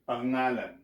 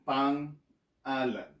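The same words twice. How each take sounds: First: The word is said quickly and smoothly, unbroken. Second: The word is split with a break after pang. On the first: "if you pronounce it fast enough, you would say pangalan" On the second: "to help you pronounce it, I'll go pang-alan"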